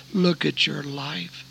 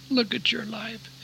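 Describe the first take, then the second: First: Slow, measured motherly plea; slow admonition. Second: Softer pleading echo. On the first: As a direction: spell it out slowly as the mother. Mother's words, first take. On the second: Mother's words repeated, higher, softer. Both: Retold or imitated.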